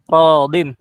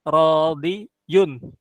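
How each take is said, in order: First: The word ends in a short -in sound. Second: The word ends in a longer -iyun sound. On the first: This is how the word is actually read. "makanya dibacanya radin" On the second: This is the word's original underlying form. "Yang asalnya tadinya radi, radiyun"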